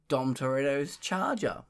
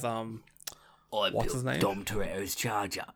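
First: It is said in the speaker's ordinary voice. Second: It is said in a put-on Cockney accent.

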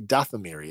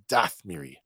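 First: The vowel after 'Dath' is pronounced. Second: The vowel after 'Dath' is dropped. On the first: "He doesn't say Dathomiri" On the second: "he omits the O"

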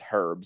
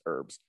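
First: It is said in a British accent, h sounded. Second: It is said in an American accent, h silent.

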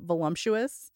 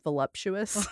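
First: The word has an extra m sound, like 'lump'. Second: The word has no extra m sound. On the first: "how I say voluptuous" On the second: "it's voluptuous"

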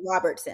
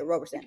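First: The name has a 't' sound before 's'. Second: The name has no 't' sound before 's'. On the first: The speaker calls it wrong. "I said Robertson" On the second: The speaker calls it right. "We're going to say it right"

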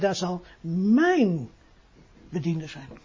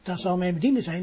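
First: The word mijn carries the main stress. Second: The word bediende carries the main stress. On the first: It is my servant, not someone else's. The speaker calls it right. "daar ligt de nadruk op het woordje mijn" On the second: It is simply about the servant. The speaker calls it wrong. "De Heer zegt niet"

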